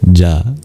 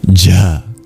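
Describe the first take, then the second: First: The consonant is released without a puff of breath. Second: The consonant is released with a puff of breath. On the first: "Just like the regular palatal plosive" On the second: "but you add breath"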